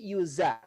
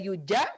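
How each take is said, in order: First: The middle consonant is a z sound. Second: The middle consonant is not a z sound. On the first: The speaker calls it right. "tetapi yuza, seperti huruf Z kalau dalam bahasa kita" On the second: The speaker calls it wrong. "tidak yuja"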